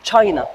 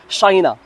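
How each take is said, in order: First: تشاينا starting with a "ch"; correct pronunciation. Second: شاينا starting with French "sh"; wrong pronunciation. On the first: Teacher correcting learners, China with a hard "ch". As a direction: say تشاينا as "chy-na". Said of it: "نقولوا تشاينا". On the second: Teacher showing what not to say, China as "shy-na". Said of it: "ما نسموهاش شاينا". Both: Shown as a demonstration.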